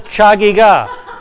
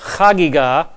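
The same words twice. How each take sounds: First: It begins with a ch sound as in church. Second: It begins with a throaty guttural sound. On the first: The speaker calls it wrong. "Please do not call it the Chagigah. It is not the Chagigah" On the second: The speaker calls it right. "If you cannot do the guttural"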